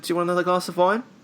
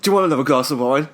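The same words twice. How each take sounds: First: The question sounds sincere and genuine. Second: The question sounds snide and insincere. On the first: The waiter is simply asking. "Sounds like he was just being genuine" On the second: The waiter does not really want to serve more. "It doesn't sound like he was like"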